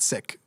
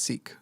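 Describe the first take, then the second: First: The vowel is short, like in 'sick'. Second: The vowel is long, like in 'seek'. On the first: This is not the usual way people say it. The speaker calls it wrong. "not Sikh" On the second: This is the usual way people say it. The speaker calls it right. "It's commonly pronounced Sikh"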